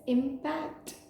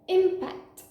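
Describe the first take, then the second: First: The stress is on the second syllable. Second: The stress is on the first syllable. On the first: It means influence. "meaning influence" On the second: It is a noun meaning a collision. "meaning collision"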